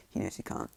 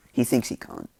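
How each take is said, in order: First: Said in the usual way. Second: "thinks" punched louder and higher; stress on thinks. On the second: Real, not acted. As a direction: correct yourself by leaning hard on "thinks". Corrects knows to thinks.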